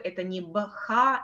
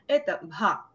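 First: It is said as two separate sounds. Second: It is said as one aspirated sound. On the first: The speaker calls it wrong. "Это не две отдельные буквы, это не «бха»" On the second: The speaker calls it right.

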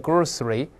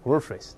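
First: The word is said slowly and fully. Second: The word is said quickly and reduced. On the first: "慢慢读叫grocery" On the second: "读快了叫groceries"

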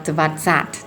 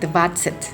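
First: The last syllable has an 'a' vowel. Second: The last syllable has an 'e' vowel. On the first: The speaker calls it wrong. "ไม่ได้อ่านว่า" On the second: The speaker calls it right. "คำนี้ก็เลยอ่านเป็น"

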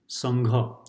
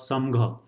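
First: The nasal is an ng sound. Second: The nasal is a plain m sound. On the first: The speaker calls it right. "so this is how they should be pronounced" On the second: The speaker calls it wrong. "if you were to literally pronounce them"

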